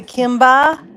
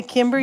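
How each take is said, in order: First: "Kimba" with an open "ah" ending, loud; R dropped. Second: Said in the usual way. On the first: Shown as a demonstration. Vlogger checks how a viewer says Kimber, R dropped to "Kimba". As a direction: say "Kimba" with no final R, questioning. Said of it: "you'd say Kimba?". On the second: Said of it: "you wouldn't say Kimber".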